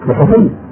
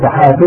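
First: The adjective is voweled from the plural noun. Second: The adjective is voweled from the singular noun. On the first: The speaker calls it wrong. "وليس صحفي" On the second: The speaker calls it right. "صحفي وليس صحفي"

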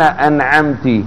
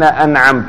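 First: The word ends with a short i vowel. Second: The word ends with a short u vowel. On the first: You, addressed as a woman, bestowed favor. "هل هي تنعم؟" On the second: The speaker himself bestowed favor. "هل هو ينعم؟"

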